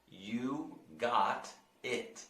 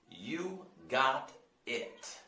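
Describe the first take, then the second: First: "You got it." very slow, got sounding like god; slow repeat model. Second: Slow, drawn-out "You got it." with a D-like t; slow model. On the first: Teacher drills the phrase slowly for the class. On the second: Teacher models slowly for students to repeat. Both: Shown as a demonstration. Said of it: "Try to, try to repeat that".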